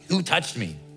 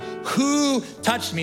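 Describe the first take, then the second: First: It sounds irritated, like someone being jostled. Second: It sounds serious and searching, deeply meant.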